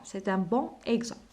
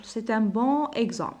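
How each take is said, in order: First: Said in the usual way. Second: "C'est un bon exemple" slowly, "bon" linked to "exemple"; slow linked reading. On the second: Shown as a demonstration. ("C'est un bon exemple" ببطء بالربط)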